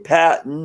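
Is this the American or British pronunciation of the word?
American. It is said the American way. "we say patent"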